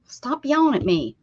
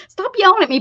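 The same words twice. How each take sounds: First: Said in the usual way. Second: High, loud mock complaint; hammed-up protest; mock yell. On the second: Real, not acted. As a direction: yell it back playfully.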